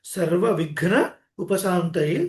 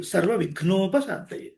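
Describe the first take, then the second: First: సర్వవిఘ్న ఉపశాంతయే in two separate parts; split compound. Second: సర్వవిఘ్నోపశాంతయే run together as one word; joined compound. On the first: Teacher taking the compound apart, సర్వవిఘ్న, pause, ఉపశాంతయే. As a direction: break after సర్వవిఘ్న, then say ఉపశాంతయే. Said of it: "ఒత్తుగా వినిపించేలాగా". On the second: Teacher showing the joined form, సర్వవిఘ్నోపశాంతయే unbroken. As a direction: join the parts through a long "no" in సర్వవిఘ్నోపశాంతయే. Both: Shown as a demonstration.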